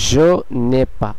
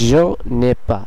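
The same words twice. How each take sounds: First: The vowel of 'ne' is dropped and linked. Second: The same.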